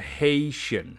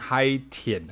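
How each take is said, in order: First: The first syllable does not sound like 'high'. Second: The first syllable sounds like 'high'. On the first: The speaker calls it right. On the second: The speaker calls it wrong.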